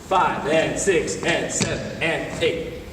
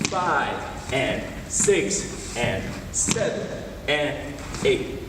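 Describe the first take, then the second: First: The counting is faster still. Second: The counting is very slow.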